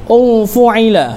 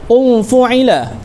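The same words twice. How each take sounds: Both takes have the same delivery.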